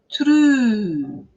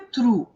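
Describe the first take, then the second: First: The vowel is long. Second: The vowel is short. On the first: The speaker calls it right. "Isso quer dizer que esse som é longo" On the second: The speaker calls it wrong. "não é true"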